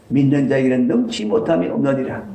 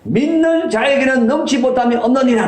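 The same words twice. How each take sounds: First: Said in the usual way. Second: High, loud stern proclamation; preacher booming Jesus's words; thundering rebuke. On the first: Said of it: "repeats the words calmly". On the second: Retold or imitated. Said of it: "호통을 치시면서".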